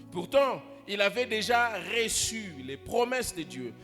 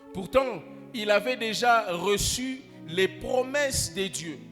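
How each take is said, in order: The two takes are said the same way.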